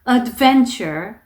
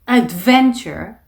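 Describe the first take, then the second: No difference in how they are said.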